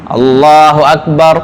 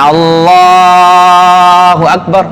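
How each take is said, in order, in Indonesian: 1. Frasanya diucapkan singkat dan cepat. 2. Frasanya diucapkan panjang. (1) "gitu aja" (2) "jangan kepanjangan ... nggak usah"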